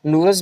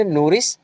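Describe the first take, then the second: First: नूरस ending in "-ras"; alternative pronunciation. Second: नूरिस ending in "-ris"; variant pronunciation. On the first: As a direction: say नूरस with a short a before the s. (नूरस, आख़िर में अ के साथ "रस") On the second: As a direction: say नूरिस with a short i before the s. (नूरिस, आख़िर में छोटी इ के साथ "रिस") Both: Shown as a demonstration. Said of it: "नूरस भी बोलते हैं".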